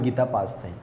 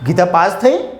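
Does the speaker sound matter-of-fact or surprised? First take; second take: matter-of-fact; surprised. First: It is said as a plain, calm statement. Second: It is said with strong astonishment. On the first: It simply reports the result. "જો અહીંયા હું પૂર્ણવિરામ મૂકું તો" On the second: The result is unexpected and shocking. "એક પ્રકારનું આશ્ચર્ય લાવી દે"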